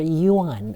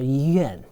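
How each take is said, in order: First: The vowel sounds like a. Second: The vowel sounds like e. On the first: This is the old-fashioned pronunciation. "You can pronounce it as a" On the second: This is the modern pronunciation. "or e"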